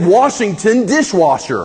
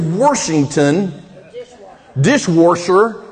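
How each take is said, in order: First: The words are said without an added R. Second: An R is added, Midwest style.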